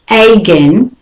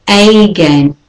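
First: Again with a weak schwa start, uh-GEN; again begun with a short uh sound; new way. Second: Again with a full AY, ay-GEN; again said the old way, first syllable as AY. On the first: Teacher models the right way to say again. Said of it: "it's really again". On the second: Teacher shows the old way to say again. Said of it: "say it the old way and the new way". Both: Shown as a demonstration.

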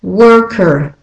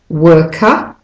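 First: Worker with a strong R at the end; American worker. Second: Non-rhotic British worker, final R dropped; Australian and British worker. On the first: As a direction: rhotic American worker, both R sounds pronounced. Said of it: "And the American". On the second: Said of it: "for the Australian and British". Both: Shown as a demonstration.

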